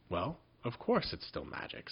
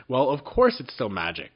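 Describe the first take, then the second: First: Said in the usual way. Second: Louder, impatient exclamation; impatient cry. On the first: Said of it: "excuse me". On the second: A narrator's reading. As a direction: snap it out impatiently. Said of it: "cried Jinx impatiently".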